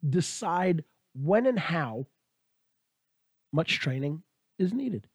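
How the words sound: The sentence has a small pause in it. The speaker calls it wrong. "that's how I did that little pause there"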